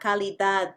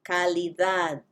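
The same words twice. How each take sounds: First: The D sounds are hard and loud. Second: The D sounds are a soft th. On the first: The speaker calls it wrong. "not calidad" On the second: The speaker calls it right. "Try to make a soft, soft T H sound"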